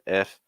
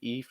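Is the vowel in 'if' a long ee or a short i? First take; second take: short i; long ee. First: The vowel is a short i sound. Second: The vowel is a long ee sound. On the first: The speaker calls it right. "it's more f f" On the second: The speaker calls it wrong. "it's not eef eef"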